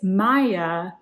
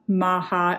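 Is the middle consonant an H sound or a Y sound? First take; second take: Y sound; H sound. First: The middle consonant is a gliding Y sound. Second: The middle consonant is a breathy H sound. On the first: The speaker calls it right. "It is Maya. The J is like a Y" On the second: The speaker calls it wrong. "I was pronouncing this like Maha"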